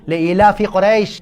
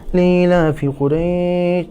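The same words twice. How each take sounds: First: It is recited forcefully, with weight and feeling. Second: It is recited lightly, without weight.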